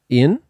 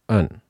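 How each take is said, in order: First: The vowel is a clear 'i' sound. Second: The vowel is a reduced 'uh' sound. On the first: The speaker calls it wrong. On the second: The speaker calls it right.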